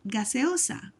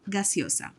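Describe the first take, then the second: First: The word is said slowly with each vowel clear. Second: The word is said fast with vowels run together.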